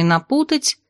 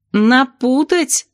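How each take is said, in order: First: Said in the usual way. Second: Long drawn-out rising wail; wailed question. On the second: A narrator's reading. Narrator appalled the potion may be botched, wailing. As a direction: howl НАПУТАТЬ slowly, pitch climbing. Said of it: "взвыла я".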